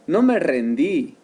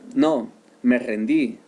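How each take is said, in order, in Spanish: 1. Se dice sin pausa después de no. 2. Se dice con una pausa después de no.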